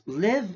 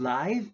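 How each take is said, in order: First: "live" with a short i, rhyming with give; short-vowel heteronym. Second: "live" with a long i, rhyming with five; long-vowel heteronym. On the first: Teacher contrasts heteronyms, short-vowel pronunciation. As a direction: say "live" as the verb. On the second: Teacher contrasts heteronyms, long-vowel pronunciation. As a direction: say "live" as in live show. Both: Shown as a demonstration. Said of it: "but they have different sounds".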